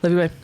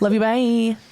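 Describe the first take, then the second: First: The words are mumbled and low in energy. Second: The words are said clearly and with feeling. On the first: The speaker calls it wrong. "I knew I mumbled it" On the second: The speaker calls it right. "that was good"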